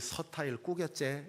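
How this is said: It is said in a Gyeongsang dialect accent. "경상도 사람들은 어, 이 서타일 꾸겼제 이렇게 얘기하거든요"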